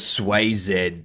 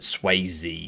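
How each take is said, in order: First: The name ends with a 'zed' sound. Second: The name ends with a 'zee' sound. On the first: The speaker calls it wrong. "it is how the letter Z's pronounced" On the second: The speaker calls it right. "I'll pronounce it Swayze since it's a name"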